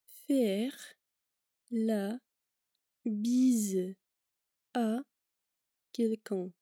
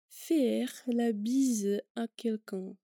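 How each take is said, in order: First: The phrase is said more slowly. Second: The phrase is said at normal speed.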